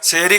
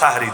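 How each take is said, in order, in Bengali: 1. প্রথম স্বরধ্বনিটি 'e' ধ্বনি। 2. প্রথম স্বরধ্বনিটি খোলা 'a' ধ্বনি। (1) "সেহরি খাই বলি" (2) "আসলে মূল শব্দ তো সাহারি"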